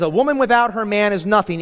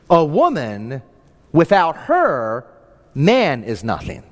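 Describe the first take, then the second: First: It is said straight through without pauses. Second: It has pauses after woman and her.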